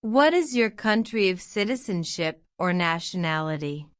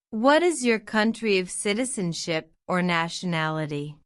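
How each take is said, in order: Both takes have the same delivery.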